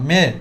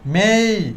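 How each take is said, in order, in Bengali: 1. শব্দটি ছোট, সংক্ষেপে বলা। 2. স্বরটি টেনে গড়িয়ে বলা হয়েছে। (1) "সংক্ষেপে মে বলতাম" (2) "একটু আমরা টেনে বলবো"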